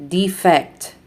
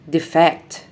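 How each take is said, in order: First: DEE-fect, stressed on the first syllable; long strong DE in Defect; noun stress. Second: DeFECT, stressed on the second syllable; short de, strong FECT in defect; verb stress. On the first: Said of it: "nouns are stressed on the first syllable". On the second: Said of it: "verbs are stressed on the second syllable". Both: Shown as a demonstration.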